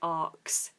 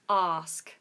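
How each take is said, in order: First: It is said as 'arks'. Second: It is said as plain 'ask'. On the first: The speaker calls it wrong. "some people pronounce this asked or arks. ... which is incorrect" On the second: The speaker calls it right. "Is the word ask"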